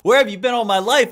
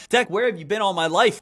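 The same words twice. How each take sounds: First: Louder, delighted cry of relief; overjoyed gush. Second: Said in the usual way. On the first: Real, not acted. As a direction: gush like you finally found the one. Gushing over the Dex tool.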